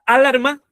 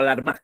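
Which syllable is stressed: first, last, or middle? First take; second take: first; last. First: The stress is on the first syllable. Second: The stress is on the last syllable. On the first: "¿La A" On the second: "o la M?"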